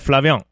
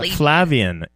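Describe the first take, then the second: First: The ending is pronounced with a French "en". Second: The ending is pronounced the plain English way. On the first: The speaker calls it right. "you have to do the "en" at the end. It's the French" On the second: The speaker calls it wrong. "It's not Flavien"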